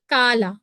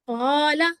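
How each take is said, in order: First: It starts with a plain front k sound. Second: It starts with a deep throaty q sound. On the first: The speaker calls it wrong. "अगर गलत तरीके से पढ़ेंगे फिर कैसे पढ़ेंगे? काला तो गलत हो गया।" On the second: The speaker calls it right. "तो काला वर्ड को हम कैसे पढ़ेंगे? क़ाला क़ाला ठीक है?"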